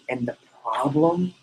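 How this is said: It is said gravely, sounding like real trouble. The speaker calls it right. "Your tone has to create a problem"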